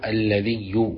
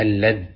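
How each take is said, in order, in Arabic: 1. تنتهي الكلمة بصوت الياء المشددة. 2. تنتهي الكلمة بحرف الذال بلا حركة. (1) "بتشديد الياء" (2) "بسكون الذال"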